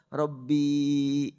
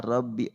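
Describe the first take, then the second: First: The final vowel is drawn out long. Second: The final vowel is short. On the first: "kalau aku pakai panjang" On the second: "Kalimat Rabbi dibaca bi"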